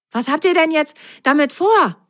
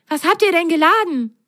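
First: High, eager bunny question; the stuffed rabbit quizzes the socks, curious; rabbit asking. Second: High, bright-eyed bunny question; the stuffed rabbit asks the socks, curious. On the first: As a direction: ask with wide-eyed interest. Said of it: "fragte der Stoffhase". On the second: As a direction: ask eagerly, leaning in. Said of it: "fragte der Stoffhase neugierig". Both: A narrator's reading.

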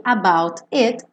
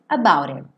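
First: "about it" with both Ts sounded, words apart; separate words. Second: "about it" run together with a tapped T, lower pitch; linked words. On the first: Teacher showing written form before linking, separate pronunciation. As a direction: say "about it" word by word. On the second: Teacher showing how it links, linked pronunciation. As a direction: join "about it" into one quick word. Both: Shown as a demonstration. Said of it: "E aqui, about it".

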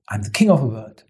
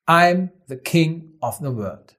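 First: Lower, understated quote. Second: Slow declaration. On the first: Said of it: "genau so eine Haltung". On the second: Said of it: "der bekannteste Satz aus dem Film". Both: Retold or imitated.

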